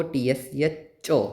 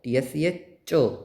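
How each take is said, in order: First: Teacher spelling T S C H O deliberately; letters named one by one; slow letter spelling. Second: Careful spelling for students; slow letter spelling. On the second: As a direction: spell out T S C H O again, slowly. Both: Shown as a demonstration. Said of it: "वैसे इसको".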